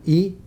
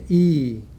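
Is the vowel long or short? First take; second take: short; long. First: The vowel is held briefly. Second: The vowel is drawn out longer. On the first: "απλό" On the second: "με παρατεταμένη τη φωνή"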